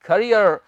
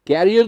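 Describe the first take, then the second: First: "करियर" with short "kuh" first syllable; correct pronunciation. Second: "कैरियर" with open "kae" start; wrong pronunciation. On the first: Teacher answering own quiz question, carefully pronounced. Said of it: "क्या कहेंगे?". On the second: Teacher rejecting the wrong form, mispronounced. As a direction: quote the mistaken "कैरियर", like carrier. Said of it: "कैरियर नहीं". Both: Shown as a demonstration.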